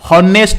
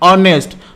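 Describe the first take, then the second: First: The word begins with an h sound. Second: The word begins directly with a vowel. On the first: The speaker calls it wrong. "हॉनेस्ट नुहे" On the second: The speaker calls it right. "अ sound आसुची"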